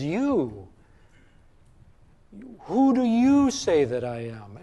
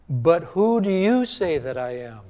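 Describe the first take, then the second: First: "You" set apart, then pause before the question; emphatic you. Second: Said in the usual way. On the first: Shown as a demonstration. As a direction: hit "You" hard, pause, then ask. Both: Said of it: "the Greek is very emphatic".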